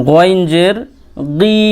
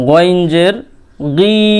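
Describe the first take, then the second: Both takes have the same delivery.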